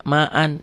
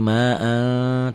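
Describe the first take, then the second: First: Said in the usual way. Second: "ma'an" with the N melted into a long hum; held ikhfa. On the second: Shown as a demonstration. Teacher shows how it is read, "ma'an" with held nasal. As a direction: stretch the end of "ma'an" as a slow nasal. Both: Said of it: "Dibacanya gimana?".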